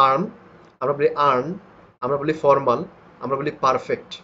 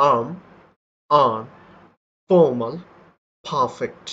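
First: আর্ম, আর্ন, ফর্মাল, পারফেক্ট with the r sounded; the Bengali way, r clear; our way of saying it. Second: আর্ম, আর্ন, ফর্মাল, পারফেক্ট with a silent r; real pronunciation. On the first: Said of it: "আমরা যেভাবে বলি সেটা আমি আগে শোনাচ্ছি". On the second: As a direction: drop the r in every word. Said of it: "এটাই হচ্ছে কি রিয়েল উচ্চারণটা হবে". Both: Shown as a demonstration.

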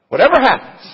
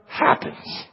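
First: Whatever happens repeated louder, stress on Whatever; emphatic repeat. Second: Said in the usual way. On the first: Shown as a demonstration. Preacher restating the believer's vow, louder, hitting Whatever. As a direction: punch the word Whatever hard.

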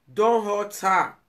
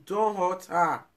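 First: Slow, firm plea, raised; insistent slow warning; louder, slow warning. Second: Said in the usual way. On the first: Real, not acted. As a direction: warn him, slower and louder. Pleading warning, repeated louder.

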